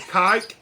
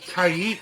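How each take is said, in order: First: It is said in one syllable, rhyming with 'bike'. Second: It is said in two syllables, 'kai-eek'. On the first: The speaker calls it wrong. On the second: The speaker calls it right. "that is how you pronounce the name"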